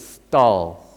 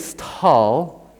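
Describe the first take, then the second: First: The T has no puff of breath after it. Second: The T has a puff of breath after it. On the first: The speaker calls it right. "just with the normal T" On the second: The speaker calls it wrong. "we don't say stall"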